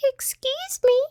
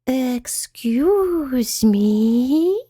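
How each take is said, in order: First: Very high, squeaky tiny mouse; high-pitched little voice. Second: Very slow, drawn-out, higher creature voice; whispery spider voice. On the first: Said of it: "said a high-pitched little voice". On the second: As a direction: stretch each word out with long glides. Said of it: "whispered a voice from the top". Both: A narrator's reading.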